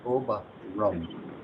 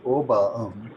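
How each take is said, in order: First: An R sound links the two words. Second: The words join with no R sound between. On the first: The speaker calls it right. "but you would say" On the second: The speaker calls it wrong. "you wouldn't say"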